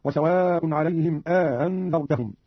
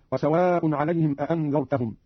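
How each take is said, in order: First: Slow reading, aa-andhartahum for "أأنذرتهم"; eased hamza, inserted alif. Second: Said in the usual way. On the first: Shown as a demonstration. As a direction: stretch the first vowel of "أأنذرتهم", easing the second hamza. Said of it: "بتسهيل الهمزة الثانية مع إدخال ألف". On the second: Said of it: "قرأ قالون بتسهيل الهمزة الثانية".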